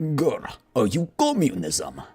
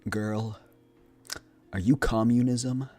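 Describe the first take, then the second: First: Said in a put-on Russian accent. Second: Said in a sultry voice without a Russian accent. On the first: "let me do it in my Russian voice" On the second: "this is my smolder"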